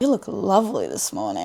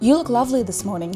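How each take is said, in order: First: It is said in a sarcastic tone. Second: It is said in a plain, sincere tone.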